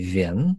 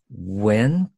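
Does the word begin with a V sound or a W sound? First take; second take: V sound; W sound. First: The word begins with a V sound. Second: The word begins with a careful W sound. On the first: The speaker calls it wrong. "We could say Vien, that could sound kind of exaggerated" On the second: The speaker calls it right. "When could work. With the very careful articulation of the W"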